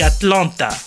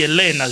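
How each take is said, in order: First: It is said with a French accent. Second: It is said with an American accent. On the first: The traveller says the city name his own way. "J'ai dit Atlanta" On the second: The airport staff say the city name their way. "Ils ont dit Elena"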